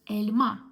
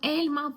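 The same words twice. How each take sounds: First: The stress is on the last syllable. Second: The stress is not on the last syllable. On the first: The speaker calls it right. "into last vowel in the nouns" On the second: The speaker calls it wrong.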